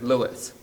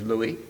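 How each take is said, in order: First: The name is said the English way. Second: The name is said the French way. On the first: This is how he referred to himself. "he referred to himself as Louis" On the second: This is how fans and New Orleans speakers said it. "the French pronunciation of his first name is Louis"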